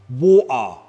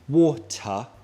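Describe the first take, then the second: First: The T is replaced by a glottal stop. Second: The T is fully pronounced. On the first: "the glottal T" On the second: "The boring normal one, where you pronounce the T"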